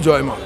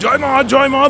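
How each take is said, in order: First: It is said softly and humbly. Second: It is said forcefully and aggressively. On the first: The speaker calls it right. "খুব নম্রতার সাথে বলা হয়" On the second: The speaker calls it wrong. "বলি নাকি? বলি না"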